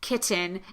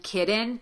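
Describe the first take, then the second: First: The middle consonant is a clearly released T. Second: The middle consonant is pronounced as a D. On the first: The speaker calls it right. "Do if you're going to do anything, put a T" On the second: The speaker calls it wrong. "You will hear certain dialects of American English use a D in this situation"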